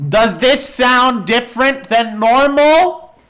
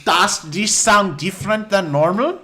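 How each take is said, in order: First: Loud, slow, raised-pitch question; drawn-out, booming test line; louder mic test. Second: Put-on German accent, raised pitch; lightly hammed-up German-accented question. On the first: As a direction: project each word into the microphone. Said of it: "A bit louder". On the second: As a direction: ask it like a comic German. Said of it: "makes it sound German". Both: Shown as a demonstration.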